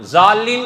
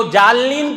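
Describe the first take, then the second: First: Said in the usual way. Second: جالین with a j sound in place of z; mispronounced Z. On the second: Shown as a demonstration. Preacher showing a faulty Quran reading, جالین opening with j. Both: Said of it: "ظالین کو جالین پڑھیں".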